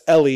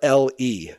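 First: It is said as one smooth word. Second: There is a pause between the two letters.

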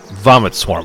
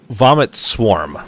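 First: The stress falls on the word vomit. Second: The stress falls on the word swarm. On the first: It is a swarm made of vomit. The speaker calls it wrong. "It's not a swarm of vomit" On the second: Something vomits out a swarm. The speaker calls it right. "It's him vomiting a swarm of other things"

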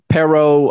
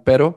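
First: It is said with an American accent. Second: It is said with a Spanish accent.

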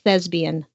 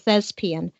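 First: The middle consonant is a B sound. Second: The middle consonant is a clear P sound. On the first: The speaker calls it wrong. "but don't say thespian" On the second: The speaker calls it right. "I'm okay with thespian or thespian"

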